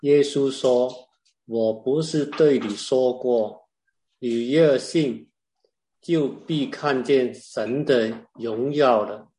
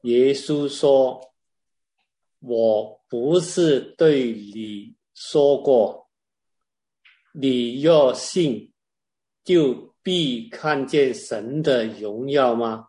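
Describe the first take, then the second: First: It is said in a milder, lighter tone. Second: It is said in a heavier, more forceful tone.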